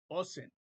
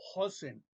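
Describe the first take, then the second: First: The word begins directly with a vowel. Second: The word begins with an h sound. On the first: The speaker calls it right. "se escucha la, la vocal y es Osen" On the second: The speaker calls it wrong. "No, es la letra Aleph es muda"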